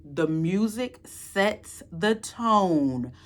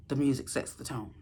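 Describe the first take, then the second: First: THE MUSIC SETS THE TONE drawn out slowly, word by word; slow, deliberate weight on each word of "music sets the tone"; emphatic. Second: Low, soft repeat; hushed, low-pitched restatement; quiet emphasis. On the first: Emphatic first take, then repeated low. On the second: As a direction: drop the voice right down to underline it. Quiet repeat to underline the point. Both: Real, not acted.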